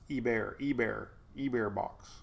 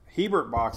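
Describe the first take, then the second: First: The first word begins without an H sound. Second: The first word begins with an H sound. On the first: The speaker calls it right. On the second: The speaker calls it wrong.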